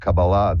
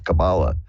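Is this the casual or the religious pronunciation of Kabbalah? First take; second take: religious; casual. First: It is said the religious, traditional way. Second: It is said the casual, popular way. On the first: The speaker means the serious religious tradition. "I pronounce it that way purposefully" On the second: The word refers to the popular amateur take. "the more uh, dilettante version is Kabbalah"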